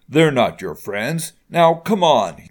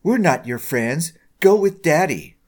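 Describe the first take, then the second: First: Raised voice, building to an order; slow insistence, then louder on the order; much louder. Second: Sneering taunt, higher and louder at the end; lightly sneer, mocking her as daddy's girl; Sabrina. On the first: Father insists his daughter leave, getting louder. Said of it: "he said, much louder". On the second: Girl disowns her friend, sneering. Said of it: "Sabrina sneered". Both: A narrator's reading.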